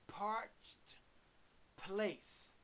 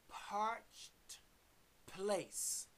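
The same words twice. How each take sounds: No difference in how they are said.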